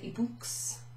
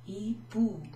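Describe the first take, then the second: First: The word ends with a sounded x. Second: The word ends on a vowel, x silent. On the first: The speaker calls it wrong. "we don't pronounce it ibooks" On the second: The speaker calls it right.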